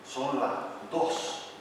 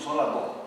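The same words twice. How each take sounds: First: The final s sounds are fully pronounced. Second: The final s sounds are weakened to breaths. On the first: This is the standard form. "nunca decimos" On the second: This is how Canary Islanders say it. "debilitamos y aspiramos la letra S al final de la palabra"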